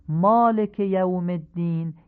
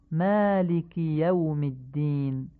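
First: مالک as "malek", said higher and louder; Persian-style reading. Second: مالک as "malik", یوم as "yawm"; eloquent Arabic. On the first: Teacher contrasts the Persian reading for listeners. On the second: Teacher models the eloquent reading for listeners. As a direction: recite مالک یوم الدین in classical Arabic. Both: Shown as a demonstration. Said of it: "به همین حالت فصیح بخونید".

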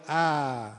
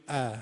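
First: Lur-style open a on "ا"; drawn-out open Lur "ا"; Lur fatha. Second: Short Persian a on "ا"; Persian fatha. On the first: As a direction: say "ا" wide open and long, as Lurs do. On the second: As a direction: say "ا" short, a little toward e. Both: Shown as a demonstration.

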